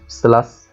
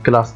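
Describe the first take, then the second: First: The word starts with an s sound. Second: The word starts with a k sound. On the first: The speaker calls it wrong. "ليه ما قُلتهاش سلاس؟" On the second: The speaker calls it right. "فباقول class"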